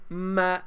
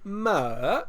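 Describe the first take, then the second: First: The pitch rises from middle to high. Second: The pitch starts medium, dips, then rises. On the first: "just from middle to all the way to high" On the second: "I start medium, uh, and then go down, and then ah, back up"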